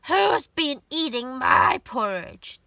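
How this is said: It is said in a loud, gruff voice.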